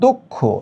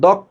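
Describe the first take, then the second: First: The first vowel is a closed 'o' sound. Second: The first vowel is an open 'aw' sound. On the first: The speaker calls it right. "দ is equal to দো।" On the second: The speaker calls it wrong. "এখানে যদি তুমি উচ্চারণ করো দক্ষ, ... কাটা যাবে।"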